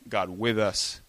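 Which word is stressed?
with. The stress is on with.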